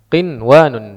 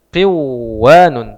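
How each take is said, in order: First: The n sound is pronounced clearly before w. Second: The n sound merges into the following w. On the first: The speaker calls it right. "tapi ini dibaca qinwanun" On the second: The speaker calls it wrong. "Semestinya secara kaidah nun sukun bertemu waw maka dibaca qiwanun"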